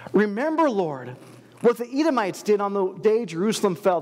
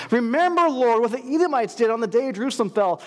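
First: Said in the usual way. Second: Urgent loud plea. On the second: Acted. Repeated plea, much louder.

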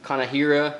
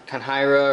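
First: Kanahira said in four syllables, Ka-na-hi-ra; alternative pronunciation. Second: Kanhira said in three syllables, Kan-hi-ra; first pronunciation guess. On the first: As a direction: say Kanahira with an extra a before the h. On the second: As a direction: say Kanhira with no vowel between n and h. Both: Shown as a demonstration. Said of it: "however you might say that".

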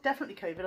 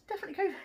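First: Said in the usual way. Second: Much higher, playful squeak; high-pitched repeat. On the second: Shown as a demonstration. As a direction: repeat it up high, half-joking.

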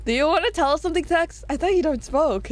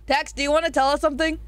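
First: Quick, giggling repeat of the question; laughing tease. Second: Said in the usual way. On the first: Real, not acted. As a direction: tease him through a laugh. Teasing Tex about smoking.

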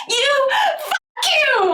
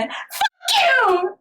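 First: Much higher, very slow, crying mock yell; hammed-up girl's cry. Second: Much higher, punchy mock curse; mock girl's curse. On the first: The girl yelling at the boy in translation, hammed-up crying yell. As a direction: drag it out like a sobbing tantrum. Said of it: "하면서". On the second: The English translation of the girl's line, high mock curse. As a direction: fling it at him like the translated girl. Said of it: "영어에서는 어떻게 번역돼 있냐면은".

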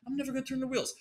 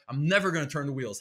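First: Much higher, defiant taunt; defiant high mock. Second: Said in the usual way. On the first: Shown as a demonstration. Comedian taunting the police, pitched high and mocking. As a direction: sing it up high to mock the cops. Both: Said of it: "How about that?".

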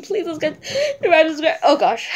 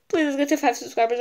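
First: Louder, higher, laughing plea; teary laugh. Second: Quick, laughing plea, a bit louder. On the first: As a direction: beg with a giggle through tears. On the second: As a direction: rush it out with a laugh. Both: Real, not acted. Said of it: "I'm about to cry".

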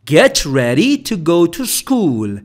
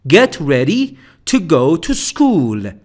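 Both takes have the same delivery.

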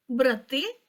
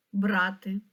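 First: Брати stressed on the last syllable, brah-TY; stress on the second syllable. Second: Брати stressed on the first syllable, BRA-ty. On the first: Teacher showing how stress changes meaning, stress on the end of брати. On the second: Teacher showing how stress changes meaning, stress on the start of брати. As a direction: hit бра in брати and let ти go light. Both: Shown as a demonstration. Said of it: "чи може наголос змінити значення слова".

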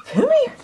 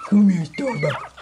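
First: "Come here" much higher, rising sweet call. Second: Said in the usual way. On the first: Real, not acted. Owner calling the puppy over, high sing-song "Come here".

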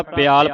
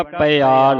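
First: ਪਿਆਲ as "pyaal", vowels run together; gliding, wrong take. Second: ਪਿਆਲ as "pa-i-aal", each vowel sounded, loud; separate short vowel. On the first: Teacher quotes how congregations misread it, glided pyaal. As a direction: slide a Y into ਪਿਆਲ. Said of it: "ਕਈ ਸੰਗਤਾਂ ਪਿਆਲ ਪੜ੍ਹ ਜਾਂਦੀਆਂ". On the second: Teacher models the sihari for children, separate vowels. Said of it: "ਈੜੀ ਦੀ ਸਿਹਾਰੀ ਉਚਾਰਨ ਕਰਾਂਗੇ". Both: Shown as a demonstration.

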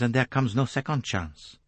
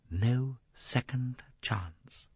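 First: Put-on accented, flowing, firm conclusion; warning Poirot. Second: Slow, soft repetition; brooding echo. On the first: Poirot finishing his warning to Jacqueline, firm. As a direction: close the warning with conviction. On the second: Jacqueline echoing Poirot's warning, slow and brooding. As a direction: draw out each word, softly dwelling on it. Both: A narrator's reading.

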